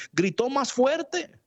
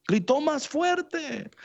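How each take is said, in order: First: High, slow, stretched preaching emphasis on fuerte; preacher lingering on "fuerte"; emphatic, drawn out. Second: Even higher, slow repeat, leaning on fuerte; preacher echoing the phrase higher; emphatic, drawn out. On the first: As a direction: stretch out "Gritó más fuerte" slowly and high. Preacher stresses Bartimeo's cry. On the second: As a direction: repeat "gritó más fuerte" slowly, climbing higher. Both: Acted.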